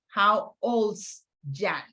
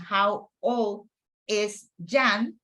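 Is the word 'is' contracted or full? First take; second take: contracted; full. First: The word is is contracted to 's. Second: The word is is said in full. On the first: "we can say" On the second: "instead of saying"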